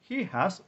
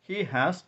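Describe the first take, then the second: No difference in how they are said.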